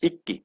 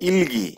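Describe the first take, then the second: First: The middle is pronounced as a doubled k. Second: The middle is pronounced with an l and g. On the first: The speaker calls it right. "কিন্তু আসলে উচ্চারণটা কি হবে আমাদের? ইক্কি।" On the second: The speaker calls it wrong. "অনেকে কি বলে? ইলগি"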